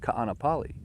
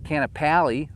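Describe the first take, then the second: First: The name is said with a local Hawaiian pronunciation. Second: The name is said with an anglicized pronunciation. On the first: The speaker has lived here a while. The speaker calls it right. "It's Ka'anapali" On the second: The speaker is new to the area. The speaker calls it wrong. "It's not Kanapali"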